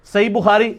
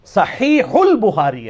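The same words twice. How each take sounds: First: "صحیح" slurred short as "sai", h dropped; everyday Urdu pronunciation. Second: "صحیح" slow, both throaty h's, linked as "sahiihul"; full Arabic pronunciation. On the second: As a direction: draw out "صحیح" into "البخاری" with breathy Arabic h. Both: Shown as a demonstration. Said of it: "صحیح بخاری تو نہیں ہے".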